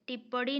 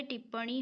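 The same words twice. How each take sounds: First: टिप्पणी with a hard retroflex d at the end, tippadi; wrong form. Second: टिप्पणी with a clear retroflex n, tippani; correct form. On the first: Teacher to students, showing the wrong spelling: टिप्पणी as tippadi. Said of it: "टिप्पणी नहीं होता है". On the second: Teacher to students, confirming the right spelling: टिप्पणी as tippani. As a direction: give the right टिप्पणी, ending on a nasal ni. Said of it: "टिप्पणी होता है". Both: Shown as a demonstration.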